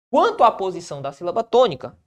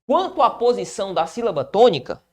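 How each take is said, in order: Both takes have the same delivery.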